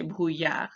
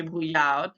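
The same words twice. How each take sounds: First: Brouillard with a silent final D; correct French pronunciation. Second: Brouillard with the final D sounded; wrong pronunciation. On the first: Teacher correcting for pupils, brouillard without the D. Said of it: "we say brouillard". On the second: Teacher showing pupils the mistake, brouillard with a hard D ending. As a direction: say brouillard wrongly, voicing the silent D. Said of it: "We don't say brouillard". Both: Shown as a demonstration.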